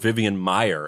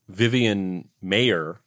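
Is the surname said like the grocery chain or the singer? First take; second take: grocery chain; singer. First: The surname sounds like the grocery chain's name. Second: The surname sounds like the rock singer's surname. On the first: "as in she is the heiress to the Midwest Maier grocery store empire" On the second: "as in she is the great grandmother of frat rock virtuoso [name]"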